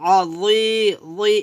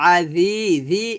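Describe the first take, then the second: First: The z consonant is heavy and thick. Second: The z consonant is light and thin. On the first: The speaker calls it right. "এখানে জ মোটা করতে হবে" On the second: The speaker calls it wrong. "জালে উচ্চারণ করবেন না"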